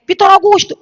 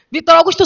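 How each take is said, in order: First: Calling her son. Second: Laughing call. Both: Retold or imitated. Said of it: "Eu digo assim a ele".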